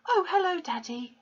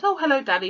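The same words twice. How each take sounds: First: Put-on high, bright greeting from a young girl; sweet girlish hello to her father; pleasant girl. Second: High, loud sweet greeting; girlish hello, quoted to the class; pleasant girl. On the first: A narrator's reading. Girl greeting her father pleasantly, high and sweet. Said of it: "she said pleasantly". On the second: Shown as a demonstration. Teacher retelling the girl's pleasant greeting, high voice. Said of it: "she said".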